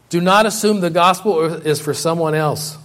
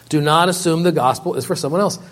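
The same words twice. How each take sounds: First: "not" hit hard, falling at the end; preacher warning the congregation, stressing "not". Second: "else" lifted at the end like a question; preacher repeating the warning, "else" rising. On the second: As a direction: let "else" hang upward. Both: Shown as a demonstration. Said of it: "repeated exhortation".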